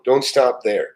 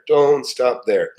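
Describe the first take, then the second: First: Said in the usual way. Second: Don't stop there drawn out slowly, each word weighted; slow emphatic repeat. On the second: Shown as a demonstration. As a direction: repeat it slowly to drive it home.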